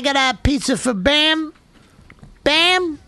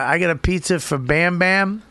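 First: It is said with many odd pauses. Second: It is said smoothly without pauses.

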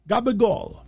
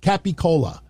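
First: The word is clipped, with no final vowel. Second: The word ends in a full final vowel. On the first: The speaker calls it right. "It's gabagol" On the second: The speaker calls it wrong. "It's not capicola"

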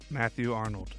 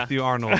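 First: It is said flatly with little energy. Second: It is said with lively energy.

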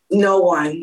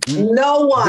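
First: It is said plainly, without attitude. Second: It is said with sassy attitude.

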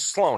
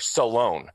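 First: The name is said with one syllable. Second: The name is said with two syllables. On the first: The speaker calls it right. "It's one syllable" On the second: The speaker calls it wrong. "I don't like when people in Wyoming call my daughter Solone"

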